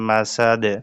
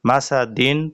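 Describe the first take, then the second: First: The word ends on a bare final consonant. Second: The word ends with an added -in ending. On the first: The reading stops at the end of the verse. The speaker calls it right. "ওয়াকফের সময় এখানে মনে মনে যজম ধরতে হবে" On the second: The reading continues as if not stopping. The speaker calls it wrong. "মাসাদিন পড়া যাবে না"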